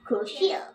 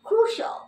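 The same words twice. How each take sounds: First: The ending is said as two syllables, shee-al. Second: The ending is said as one syllable, shl. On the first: The speaker calls it wrong. "not crucial" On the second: The speaker calls it right. "আমরা শিয়াল বাদ দিয়ে বলবো শল"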